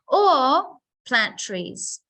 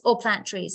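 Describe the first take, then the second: First: The word 'or' is long, followed by a pause. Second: The word 'or' is short with no pause. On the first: The speaker calls it right. "I stretch it out, make it long" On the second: The speaker calls it wrong. "not just or plant trees"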